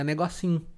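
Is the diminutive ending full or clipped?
clipped. The diminutive ending is cut short. "vira negocinho ... Você corta uma parte da palavra"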